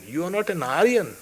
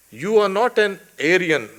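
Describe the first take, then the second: First: "Aryan" begun with a long AH; Sanskrit-style pronunciation. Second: "Aryan" begun with an AIR sound; English pronunciation. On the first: Lecturer correcting how the word is pronounced, "Aryan" said AH-ree-un. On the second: Lecturer translating the rebuke to Arjuna, "Aryan" said AIR-ee-un. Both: Shown as a demonstration. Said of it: "we will pronounce it as Aryan".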